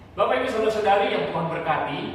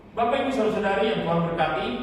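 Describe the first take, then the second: No difference in how they are said.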